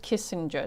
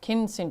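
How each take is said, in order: First: No n sound comes before the s. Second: An n sound comes before the s. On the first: The speaker calls it wrong. "It's not just Kissinger" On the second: The speaker calls it right. "Got to say it right. It's Kin Singer"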